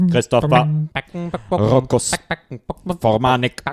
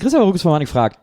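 First: It is said in an emotionless robot voice. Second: It is said in his natural speaking voice.

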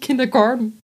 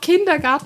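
First: The word is said with English pronunciation. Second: The word is said with German pronunciation. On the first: The speaker calls it wrong. "und nicht Kindergarten" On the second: The speaker calls it right. "dann musst du es auch auf Deutsch aussprechen. Du sagst ja auch Kindergarten"

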